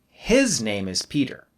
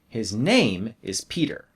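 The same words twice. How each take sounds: First: The word his carries the strongest stress. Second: The word name carries the strongest stress. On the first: It is this person's name, not another person's. "then I'll put stress on his" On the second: It is the name, not something else like the password. "then I'll put stress on name"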